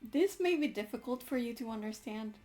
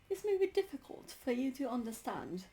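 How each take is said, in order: First: It is read in a plain accent. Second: It is read in a British accent.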